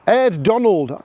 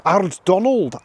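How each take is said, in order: First: "Ed" Donald, with a short flat e vowel; Aird as Ed. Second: "Ard" Donald, rhyming with hard; Aird as Ard. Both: Shown as a demonstration. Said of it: "I don't even know how to say".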